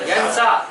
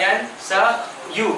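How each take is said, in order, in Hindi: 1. क्रिया लंबे 'a' स्वर से खत्म होती है। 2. क्रिया 'ayu' अक्षरों से खत्म होती है। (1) "क्या पढ़ेंगे?" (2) "असल जो है नहीं"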